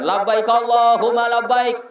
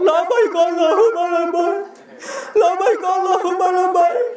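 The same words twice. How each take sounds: First: Steady recited pilgrim call; leading the talbiyah. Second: High, wailing pilgrim chant; mock tearful talbiyah. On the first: Retold or imitated. Guide calling the talbiyah on seeing the Kaaba, steady recitation. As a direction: lead elderly pilgrims in the talbiyah. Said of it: "saya lambaikan". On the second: Pilgrim answering his guide at the Kaaba, mock crying chant. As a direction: imitate an old pilgrim sobbing out the response. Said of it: "Bapak nangis".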